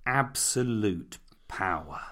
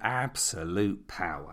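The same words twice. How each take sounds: First: "absolute power" slow and weighty, stress on "absolute"; dramatic stress. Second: "absolute power" lower and softer, stress on "absolute"; dramatic stress. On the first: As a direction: lean on "absolute", drag out "absolute power". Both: Acted. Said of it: "listen to those words".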